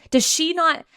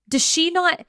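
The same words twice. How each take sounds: The two takes are said the same way.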